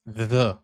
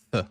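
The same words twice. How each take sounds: First: "The" with a buzzing, voiced th. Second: "the" as voiceless, airy th; unvoiced TH. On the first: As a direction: sound out "The" with the voice on. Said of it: "the voiced T H". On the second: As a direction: sound out "the" using only breath, as in thin. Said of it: "to have the unvoiced T H". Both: Shown as a demonstration.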